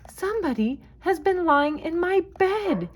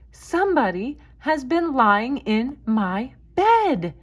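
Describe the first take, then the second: First: The voice is small and high. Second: The voice is of middle pitch and size.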